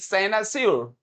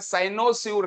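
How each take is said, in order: First: The second syllable has a short 'uh' vowel. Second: The second syllable has a full 'oh' vowel. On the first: The speaker calls it right. "इसका उच्चारण देखेगा" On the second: The speaker calls it wrong. "साइनोस्यूर नहीं"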